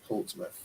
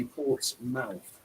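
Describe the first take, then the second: First: Said in the usual way. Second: Portsmouth slowly, with a full "mouth"; two separate words. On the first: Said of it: "not Portsmouth". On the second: Retold or imitated. Showing how South Wales says it, Portsmouth as two words. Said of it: "people in South Wales, they say".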